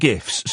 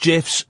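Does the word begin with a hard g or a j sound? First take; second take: hard g; j sound. First: The word begins with a hard g sound. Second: The word begins with a j sound. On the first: The speaker calls it wrong. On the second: The speaker calls it right. "It's pronounced"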